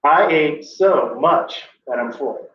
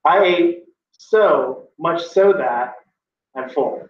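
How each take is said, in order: First: Slow, heavy stress on "I ate so much that"; wrong inflection. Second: Slow, heavy stress on "so much so"; wrong inflection. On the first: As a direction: drag out "I ate so much that I'm full" with the stress on the wrong word. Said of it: "I'm gonna do wrong inflection for the other version". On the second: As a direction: drag out "I ate so much so that" with the wrong emphasis. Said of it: "Let me inflect it wrong". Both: Shown as a demonstration.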